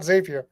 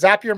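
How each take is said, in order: First: The name is said not rhyming with happier. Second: The name is said to rhyme with happier. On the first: The speaker calls it wrong. "It's not Zapier" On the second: The speaker calls it right. "because Zapier makes you happier"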